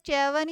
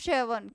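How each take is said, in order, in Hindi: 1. शब्द 'ch' की आवाज़ से शुरू होता है। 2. शब्द 'sh' की आवाज़ से शुरू होता है। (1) "कोई चैवन बोलता है" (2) "कोई शीवन बोलता है"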